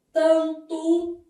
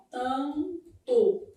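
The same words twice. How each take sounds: First: Loud, drawn-out "tanto", written-word demonstration; word sounded out. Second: "tanto" broken into "tan... to"; slow "tanto" in two separate syllables; syllable split. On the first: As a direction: say "tanto" firmly, both syllables stretched evenly. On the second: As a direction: hold the nasal "tan", pause, then a falling "to". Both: Shown as a demonstration. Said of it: "vai ter um dígrafo assim".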